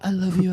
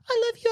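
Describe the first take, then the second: First: It is said in a lower voice. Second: It is said in a higher voice.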